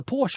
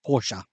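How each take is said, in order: First: Said in the usual way. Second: Porsche said in two syllables, ending in -uh; self-corrected pronunciation. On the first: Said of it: "Porsche, I should say". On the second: Real, not acted. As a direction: say Porsche slowly as POR-shuh. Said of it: "I should say".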